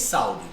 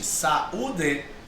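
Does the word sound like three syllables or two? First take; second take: two; three. First: The vowels blend, giving two syllables. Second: The stressed u stands apart, giving three syllables. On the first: The speaker calls it wrong. "Ninguém diz saúde. Não existe essa palavra" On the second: The speaker calls it right. "Existe saúde. Então esse U recebe o acento, forma hiato"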